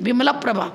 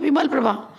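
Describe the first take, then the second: First: The syllable before prabha is lengthened and stressed. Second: The syllable before prabha is short and unstressed. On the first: This follows the grammatical rule before a consonant cluster. "आपको उच्चारण ऐसे करना चाहिए" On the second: This is the everyday, customary form of the name. "Simple तो यही बोलते हैं।"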